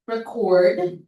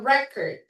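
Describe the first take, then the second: First: The stress is on the second syllable. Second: The stress is on the first syllable. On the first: It is a verb. "Pero sa second syllable" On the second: It is a noun. "pag noun, nasa first syllable yung stress"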